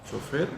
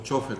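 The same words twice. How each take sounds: First: It is said the way speakers in Peru say it. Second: It is said the way speakers in Spain say it. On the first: "como decimos la mayoría de los peruanos" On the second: "como dicen los españoles"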